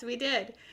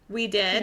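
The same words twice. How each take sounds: First: It sounds like an excited agreement. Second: It sounds like a doubtful question.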